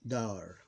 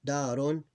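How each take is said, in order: First: "dar" stopping on the r; vowel ending dropped. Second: "darun" with the -un ending sounded; full ending pronounced. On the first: Teacher showing the period drops the vowel, ending dropped. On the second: Teacher showing learners the unshortened word, full ending pronounced. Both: Shown as a demonstration. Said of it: "the vowel is gone".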